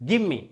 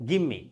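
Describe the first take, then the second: Both takes have the same delivery.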